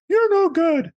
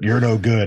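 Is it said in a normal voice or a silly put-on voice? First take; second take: silly; normal. First: It is said in a silly puppet voice. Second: It is said in a normal voice.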